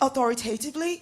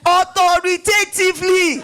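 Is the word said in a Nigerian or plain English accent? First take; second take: English; Nigerian. First: It has a plain English accent and little emphasis. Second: It has a Nigerian accent and strong emphasis. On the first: "when you're speaking very English" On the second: "let the Nigerian in me speak. Put emphasis into it"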